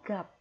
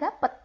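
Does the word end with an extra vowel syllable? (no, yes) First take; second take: no; yes. First: The word ends cleanly on the p sound. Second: An extra vowel and t sound follow the p. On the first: The speaker calls it right. "tapi gap" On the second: The speaker calls it wrong. "bukan gapet cara bacanya"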